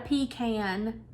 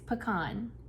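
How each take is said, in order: First: The word sounds like 'pee can'. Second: The word does not sound like 'pee can'. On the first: The speaker calls it wrong. "It's not a pecan. You're not gonna pee in a can" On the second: The speaker calls it right. "It's pecan"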